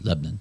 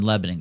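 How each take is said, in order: First: The word is said with a syllable dropped. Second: The word is said with all its syllables. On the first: The speaker calls it right. "It's Lebanon" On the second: The speaker calls it wrong. "I said that with too many syllables"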